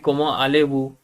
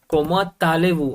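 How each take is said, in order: First: No t sound between comment and allez. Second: A t sound links comment to allez. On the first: The speaker calls it wrong. "Why it shouldn't be कमा आलेबू" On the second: The speaker calls it right. "हम कहते हैं ना कोमा तालेवु"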